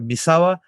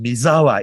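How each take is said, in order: First: The middle consonant is a hissing s sound. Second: The middle consonant is a buzzing z sound. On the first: This is the name's original form. "if you remember Misawa" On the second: This is how Americans say the name. "it's pronounced Mizawa in America"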